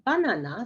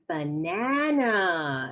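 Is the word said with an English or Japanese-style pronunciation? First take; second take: Japanese; English. First: It is said with Japanese katakana-style pronunciation. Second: It is said with English pronunciation. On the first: The speaker calls it wrong. "not banana" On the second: The speaker calls it right. "It's banana"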